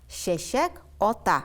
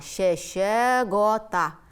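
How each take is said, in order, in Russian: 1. Два слова произносятся отдельно, заканчиваясь на k. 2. Слова звучат слитно, k звучит как g. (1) "Два слова" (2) "как одно слово"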